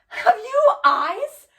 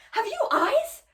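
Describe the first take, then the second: First: High, loud, drawn-out cry rising at the end; outraged challenge. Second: High, quicker question with less force, rising sharply; incredulous challenge. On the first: Hamlet confronts the widow over her husbands, loud outraged cry. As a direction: hurl the question out in accusation. Hamlet's acted accusation, first take. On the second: Hamlet questions the widow, high incredulous reproach. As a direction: repeat it in pained disbelief. Hamlet repeats the acted accusation. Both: Acted.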